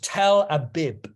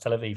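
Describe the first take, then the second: First: The second word is said with B sounds. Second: The second word is said with V sounds. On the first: It is read the way a Mizrahi reader would say it. "it would have been pronounced as a B" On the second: It is the established way the name is said. "actually it's pronounced Tel Aviv"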